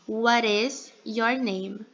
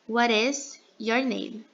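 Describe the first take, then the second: First: "What is" is said in full, linked together. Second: The same.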